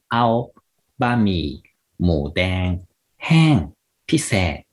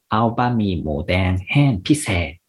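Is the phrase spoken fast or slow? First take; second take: slow; fast. First: The phrase is spoken slowly. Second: The phrase is spoken more quickly. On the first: "まずはゆっくり行ってみます。" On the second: "もうちょっと早く言ってみると、"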